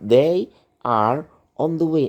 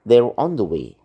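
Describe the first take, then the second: First: The words 'they are' are said in full. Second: The words 'they are' are shortened together quickly. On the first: The speaker calls it wrong. "Nggak mungkin dia bilang" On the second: The speaker calls it right. "Tapi cepat dia ngomong"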